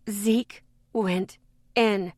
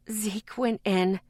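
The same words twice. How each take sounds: First: "Zeke went in" slow, stress on in; slow repeat. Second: Raspy voice. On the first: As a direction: spell it out slowly. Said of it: "I repeated". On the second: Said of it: "my voice raspy". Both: A narrator's reading.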